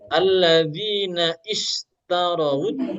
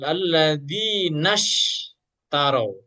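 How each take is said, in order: First: A separate 'i' starts the second word. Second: The words run together with no separate 'i' sound. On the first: The speaker calls it wrong. "Bukan alladzina istarawut. Bukan" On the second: The speaker calls it right. "Pasti gak kebaca"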